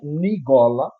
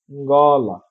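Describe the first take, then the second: First: A vowel is inserted between the n and g. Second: The word begins directly with a nasal ng sound. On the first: The speaker calls it wrong. "Não é nigola" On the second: The speaker calls it right. "um fonema nasal, então a gente produz, né, nasalando"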